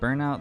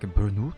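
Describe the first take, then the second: First: It is said with an English pronunciation. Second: It is said with a French pronunciation. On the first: The speaker calls it right. "We say it the English way" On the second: The speaker calls it wrong. "pronounce it the French way, and it's horrendous"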